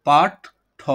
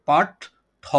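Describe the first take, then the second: Both takes have the same delivery.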